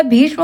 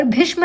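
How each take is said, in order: First: भीष्म with a long ee; correct भीष्म. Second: भीष्म with a short i; wrong भीष्म. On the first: Teacher gives the correct word, भीष्म with long ee. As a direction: stretch the vowel in भीष्म, "bheeshm". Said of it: "होता है". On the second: Teacher shows the misspelling, भीष्म with short i. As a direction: clip भीष्म to "bhishma". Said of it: "नहीं होता". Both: Shown as a demonstration.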